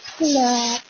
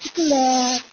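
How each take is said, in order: First: It is said in a sweet, tender Ilonggo accent. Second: It is said in a sweet, tender Ilonggo accent.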